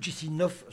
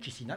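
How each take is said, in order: First: The name is pronounced the Russian way. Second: The name is pronounced the Romanian way. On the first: "mais à la russe" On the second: "non pas à la roumaine"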